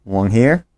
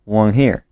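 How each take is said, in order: Both takes have the same delivery.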